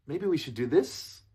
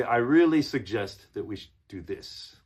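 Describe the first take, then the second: First: "Maybe we should do this" higher, "this" lifted like a question; up-talking. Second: "really" punched louder, ending settled on "this"; firm suggestion. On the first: Coach shows a weak suggestion to students, "this" rising. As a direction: ask permission with a rise on "this". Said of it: "makes it sound like you're asking". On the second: Coach models sounding like you know it, "really" stressed. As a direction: assert it with strong weight on "really". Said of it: "see the difference?". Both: Shown as a demonstration.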